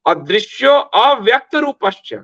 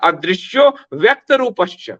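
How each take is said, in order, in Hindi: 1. 'vyakta' से पहले 'a' ध्वनि बोली जाती है। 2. 'vyakta' से पहले कोई 'a' ध्वनि नहीं बोली जाती।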